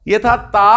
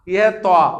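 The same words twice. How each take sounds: First: Said in the usual way. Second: توا with rounded lips, set against the light تا; rounded toa. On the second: Shown as a demonstration. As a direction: round the vowel of توا, heavy and emphatic. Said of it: "تھوڑا سا ذرا گول کر دینا".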